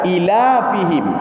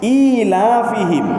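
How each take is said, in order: First: A long vowel is heard between the l and f. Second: A long vowel is heard between the l and f.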